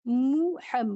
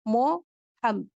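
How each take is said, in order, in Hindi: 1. पहले अक्षर में 'u' स्वर है। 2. पहले अक्षर में 'o' स्वर है। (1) "मु और मो" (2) "मु और मो"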